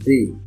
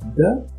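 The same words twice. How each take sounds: First: The vowel is a short i sound. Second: The vowel is a short neutral schwa. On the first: "one is with E sound ... it's not the long sound" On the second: "one is with schwa"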